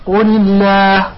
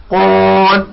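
First: "الله" with a thin, front "laah", drawn out; slow "قل الله", keeping the long vowel of "الله" light; light alef. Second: The word written "قول" said "qaal" with a dark, rounded aa; heavy alef. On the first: Teacher demonstrates the thin alef, light "الله". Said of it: "الألف المرقق". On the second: Teacher demonstrates the thick alef, dark-vowelled "قول". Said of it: "الألف المفخم". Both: Shown as a demonstration.

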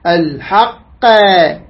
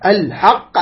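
First: الحق with a long extra "qaa" on the end; added vowel error. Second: الحق with a bouncing echo on the final qaf; qalqala echo. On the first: Teacher warns against adding a letter, exaggerated wrong ending. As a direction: stretch the qaf of الحق into an open vowel. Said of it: "حرف زايد". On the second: Teacher shows students the vibrating letter, qalqala echo on الحق. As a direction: release the ق of الحق with a short bounce. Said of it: "هكذا، فيضطرب الحرف". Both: Shown as a demonstration.

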